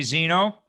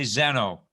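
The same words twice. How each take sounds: First: Zeno said ZEE-no, long ee like American zebra; US pronunciation. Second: Zeno said ZEH-no, short e like British zebra; UK pronunciation. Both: Shown as a demonstration. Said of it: "you may sometimes hear me say Zeno".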